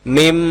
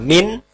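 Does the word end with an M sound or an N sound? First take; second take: M sound; N sound. First: The word ends with an m sound. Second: The word ends with an n sound. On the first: The speaker calls it right. "tapi mim ba'di" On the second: The speaker calls it wrong. "Tidak boleh dibaca min"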